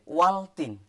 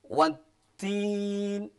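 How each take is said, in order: First: The L is pronounced clearly before the T. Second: The L merges into the doubled T sound. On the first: The speaker calls it wrong. "tidak boleh waltin" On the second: The speaker calls it right. "ketika membaca seperti ini, wantin"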